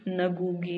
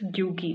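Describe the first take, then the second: First: The name starts with an n sound. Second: The name starts with a g sound. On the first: The speaker calls it wrong. "Not नगूगी" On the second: The speaker calls it right. "It's ग्यूगी"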